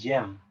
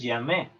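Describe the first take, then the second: First: The final e is left silent. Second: The final e is pronounced aloud. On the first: The speaker calls it right. "tú dices j'aime" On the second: The speaker calls it wrong. "Tú no dices j'aime"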